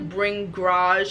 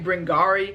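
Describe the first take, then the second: First: The word ends with a 'j' sound. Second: The word ends with an 'ee' sound. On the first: The speaker calls it right. "But I think it's the Bringage" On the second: The speaker calls it wrong. "I don't think I've been pronouncing that right in my videos. I've been saying Bringari"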